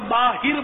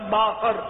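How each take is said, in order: First: The last syllable has an 'i' vowel. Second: The last syllable has an 'a' vowel. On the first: It is the common mistaken pronunciation. The speaker calls it wrong. "غالب اکثریت باہر بولتی ہے، یہ غلط العوام ہے" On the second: It is the original pronunciation meaning outside. The speaker calls it right. "اصل تلفظ باہر"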